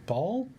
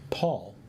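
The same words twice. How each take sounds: First: Paul? with a rising question tune; puzzled question. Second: Paul said flatly, falling at the end; flat statement. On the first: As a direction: ask Paul? back, unsure what was meant. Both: Shown as a demonstration.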